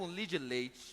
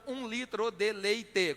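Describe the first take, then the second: First: The phrase is squeezed into three short syllables. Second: Every syllable of the phrase is pronounced fully. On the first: "com três" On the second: "com seis sílabas"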